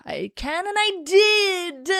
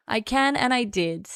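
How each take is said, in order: First: Slow, high defiant boast; megalomaniac rant. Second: Said in the usual way. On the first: Pretend. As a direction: drawl it out like a smug villain.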